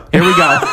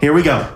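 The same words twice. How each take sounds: First: "Here we go" ending on a rise; teasing "Here we go". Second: "Here we go" with a falling end; mock weary "Here we go". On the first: Retold or imitated. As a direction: lift "go" upward, playful. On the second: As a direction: drop the pitch on "go", resigned. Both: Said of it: "and he goes".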